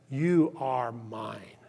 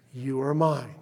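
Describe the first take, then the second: First: Low, slow and hushed, as God speaking; a low, gentle claim of love, drawn out slowly; slow hushed tender voice of God; tender whisper-soft. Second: Soft, breathy whisper of mine; whispered tender claim. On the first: God's voice quoted tenderly. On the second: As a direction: whisper it like a secret promise. God's voice quoted, whispered. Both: Acted.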